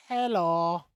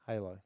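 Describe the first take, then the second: First: "Hello" said as hello, stressed o; "Hello" with the h and eh vowel, loud; says hello. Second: "Halo" as hay-lo, soft and falling; "Halo" said hay-loh, quiet, no h; says Halo. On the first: Pretend. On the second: Shown as a demonstration. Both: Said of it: "I thought you said hello".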